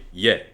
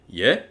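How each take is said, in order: First: The pitch falls at the end like a statement. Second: The pitch rises at the end like a question. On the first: It means yes. "that means yes" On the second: It means excuse me. "that means excuse me"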